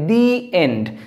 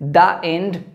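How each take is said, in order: First: 'The' is said with a long 'ee' vowel. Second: 'The' is said with a short 'uh' vowel. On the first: The speaker calls it right. "সেটা হবে দি end" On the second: The speaker calls it wrong. "নয়"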